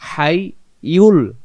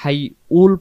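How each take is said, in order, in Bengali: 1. দ্বিতীয় অক্ষরটি 'yul', এতে y ধ্বনি আছে। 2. দ্বিতীয় অক্ষরটি 'ul', এতে কোনো y ধ্বনি নেই। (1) "উল না ইউল হবে" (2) "এখানে আল হাই উল পড়বো না"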